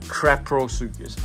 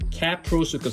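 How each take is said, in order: First: The name begins with the sound 'crap'. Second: The name begins with the sound 'cap'. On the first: The speaker calls it wrong. "not Craprosuchus. I think I called it Craprosuchus" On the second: The speaker calls it right.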